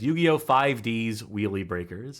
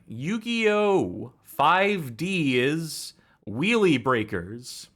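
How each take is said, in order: First: The title is pronounced in the ordinary way. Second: The title is pronounced in an odd, distorted way. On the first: The speaker calls it right. "if you want to not uh, mispronounce it deliberately" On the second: The speaker calls it wrong. "mispronounce it deliberately"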